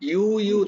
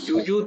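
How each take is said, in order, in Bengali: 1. এটি 'you'-এর মতো 'y' ধ্বনি দিয়ে শুরু হয়। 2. এটি 'j' ধ্বনি দিয়ে শুরু হয়। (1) "ইংরেজিতে ইউ ইউ হয় না, ওই ইউ ইউ উচ্চারণটা করো" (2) "যুযুৎ নয়"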